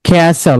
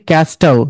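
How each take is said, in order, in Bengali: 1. 't' ধ্বনিটি নীরব। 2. 't' ধ্বনিটি উচ্চারিত হয়। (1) "এটা হবে ক্যাসল, মানে এখানে টিটার প্রনাউন্স হবে না" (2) "ক্যাস্টল না"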